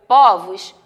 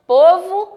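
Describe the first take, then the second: First: POVOS with an open ó, pó-vos; POVOS, stressed o open-mid. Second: POVO with a closed ô, pô-vo; POVO, stressed o close-mid. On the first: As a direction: say "povos" with a wide ó, voice dropping. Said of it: "ele vai dar o som de aberto". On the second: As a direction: say "povo" with rounded ô, voice lifting. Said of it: "A tonicidade dela vai ser fechada". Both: Shown as a demonstration.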